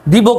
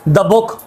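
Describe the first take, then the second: First: 'The' is said with a long 'thee' vowel. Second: 'The' is said with a short 'thuh' vowel. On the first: The speaker calls it wrong. "नहीं" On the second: The speaker calls it right. "सही है"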